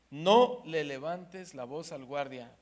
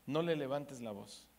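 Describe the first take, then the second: First: "No le levantes la voz" slowed and louder, each word weighed; slow emphatic command. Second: Said in the usual way. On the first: Shown as a demonstration. Preacher repeating God's warning to the wife, slow and emphatic. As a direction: press the warning home slowly.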